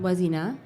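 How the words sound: The pitch rises at the end like a question. The name sounds uncertain, like a question. The speaker calls it wrong. "your name isn't Wazina"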